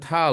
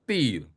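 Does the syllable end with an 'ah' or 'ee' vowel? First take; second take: ah; ee. First: The syllable is said with an open 'ah' vowel. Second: The syllable is said with a high 'ee' vowel. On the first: The speaker calls it wrong. "bukan ta loh" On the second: The speaker calls it right. "ini, ti"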